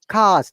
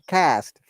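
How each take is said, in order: First: It is said with a British broad vowel. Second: It is said with an American flat vowel.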